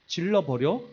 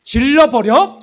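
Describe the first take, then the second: First: Said in the usual way. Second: Much louder, higher reckless cry; fed-up outburst. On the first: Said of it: "이런 마음이 들면서". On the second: Retold or imitated. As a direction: blurt it out, fed up. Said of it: "내가 뚜껑이 열렸어". (홧김에 크게 높여 외치는 질러버려)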